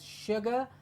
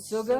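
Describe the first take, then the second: First: The word begins with a 'sh' sound. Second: The word begins with a plain 's' sound. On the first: The speaker calls it right. "pronounced as sugar" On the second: The speaker calls it wrong. "and not"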